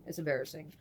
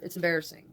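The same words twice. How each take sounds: First: Much softer, low mumbled repeat; quiet embarrassed repeat. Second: Said in the usual way. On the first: Real, not acted. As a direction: mutter it again under your breath, sheepish. Repeats it, dropping her voice.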